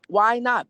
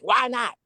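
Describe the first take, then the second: First: The question sounds genuinely curious and open. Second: The question sounds demanding and confrontational. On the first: The asker really wants to understand. The speaker calls it right. "I said it in a tone where I was really curious" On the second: The asker is challenging or scolding. The speaker calls it wrong. "not like"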